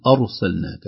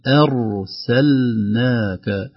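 First: "أرسلناك" with a thick, full-mouthed opening; wrong heavy hamza. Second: "أرسلناك" with a thin, light hamza, slow recited. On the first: Teacher shows the wrong heavy hamza. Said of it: "ولا نقول". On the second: Teacher models the light hamza: ترقيق الهمزة. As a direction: soften the opening hamza of "أرسلناك". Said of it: "الهمزة نرققها". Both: Shown as a demonstration.

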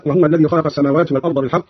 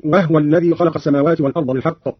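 First: Said in the usual way. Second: وهو said "wahwa"; no u after the h in وهو; silent vowel on the haa. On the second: Shown as a demonstration. Teacher demonstrating the silent haa, وهو as "wahwa". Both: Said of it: "بإسكان الهاء".

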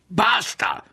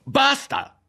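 First: High, loud cry of Basta!; a sharp, loud Basta!; outburst shout. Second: Basta! even higher and loud; a piercing, loud Basta!; shouting. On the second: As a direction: let the Basta! burst out highest. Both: A narrator's reading. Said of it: "fu sul punto di gridare".

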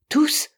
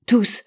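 First: "Tous" as a high, rising question. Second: "Tous" as a loud, firm answer. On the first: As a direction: ask "Tous" with pitch lifted sharply. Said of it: "demanda Bell". (« Tous » interrogatif, aigu) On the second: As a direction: answer "Tous" forcefully, pitch raised. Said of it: "répondit Hatteras". (« Tous » affirmatif, lancé fort) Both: A narrator's reading.

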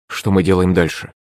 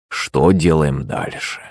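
First: Said in the usual way. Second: Drawn-out, lower echo of a question; slow pondering. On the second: A narrator's reading. Prince on his stone throne echoing the question, pondering. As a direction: repeat it slowly, mulling it over. Shuvalov slowly echoes the question.

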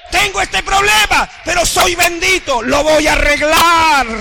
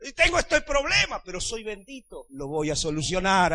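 First: Louder and higher, belting it out; shouted declaration. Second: Said in the usual way. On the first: Shown as a demonstration. Preacher to congregation, now shouting it loud and higher. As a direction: proclaim it like a victory cry. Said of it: "repeats it loud for the church". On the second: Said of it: "first, softer take of the line".

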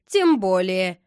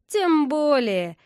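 First: Loud, cold brush-off; cold reply. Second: High, slow, drawn-out spiteful jibe; snide. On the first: Boy brushing off his friend's excuse on the phone, coldly. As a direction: answer coldly, giving nothing. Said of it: "холодно ответил Рома". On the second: Boy taunting his angry friend on the phone, snide. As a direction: needle him with mock sweetness. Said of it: "ехидным голосом". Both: A narrator's reading.

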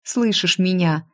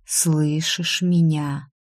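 First: Brisker, anxious check; lightly acted concerned call; urgent question. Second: Very slow, measured question; unhurried, mesmerising check; slow hushed question. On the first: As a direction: try to get through to him. Heroine urgently checks on Danila. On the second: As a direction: draw it out like a hypnotist. Whisperer slowly checks on frightened heroine. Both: A narrator's reading.

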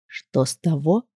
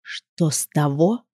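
First: Soft, low, poisonous murmur; venomous rustle. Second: Slow, soft, low poisonous hiss; venomous rustle. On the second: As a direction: drag it out, dripping venom. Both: Acted. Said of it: "ядовитым голосом прошелестел Маркус".

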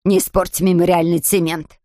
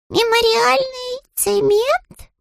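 First: Stern warning. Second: Very high, slow rising cub voice; stunned little bear. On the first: Mrs Bird warns Paddington off the wet cement, firm. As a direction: warn him sharply. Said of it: "закричала вдруг миссис Бёрд". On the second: Paddington baffled by the wet cement, high slow question. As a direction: repeat it baffled, slowly. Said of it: "ошарашенно повторил Паддингтон". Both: A narrator's reading.

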